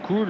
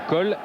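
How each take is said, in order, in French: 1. La voyelle est un son oo long. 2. La voyelle est un son o. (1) "Cole ou Cool" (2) "il fallait prononcer"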